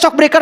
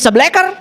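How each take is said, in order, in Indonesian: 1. Diucapkan mirip dengan 'shock breaker' dalam bahasa Inggris. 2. Diucapkan dalam bentuk singkat 'sebleker'. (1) "tulisannya shock breaker" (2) "dibacain jadi sebleker"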